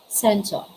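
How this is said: The final R is dropped entirely. "But for the British, they pronounce that as cento. Nawawala po yung letter R"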